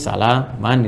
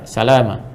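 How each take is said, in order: First: The word ends with a short vowel and n. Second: The word ends with a lengthened final vowel. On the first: "standarnya begini" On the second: "Jadi bacanya panjang, ini sama dengan satu alif ya"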